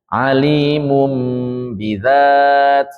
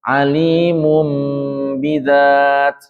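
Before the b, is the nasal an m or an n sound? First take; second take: m sound; m sound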